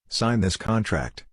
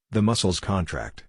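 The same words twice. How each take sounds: First: "contract" said CON-tract; slow, with CON punched in "contract"; noun stress. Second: "contract" said con-TRACT; verb stress. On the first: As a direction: stress the first syllable of "contract". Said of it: "The former is a noun". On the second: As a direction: stress the last syllable of "contract". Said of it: "whereas the latter is a verb". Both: Shown as a demonstration.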